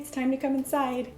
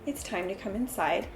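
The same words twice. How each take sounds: First: It is said in a happy, positive tone. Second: It is said in a firm tone. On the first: This is a nice first request. "asking nicely in a happy, positive tone" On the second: The speaker means business now. "you're changing your tone to a firm tone"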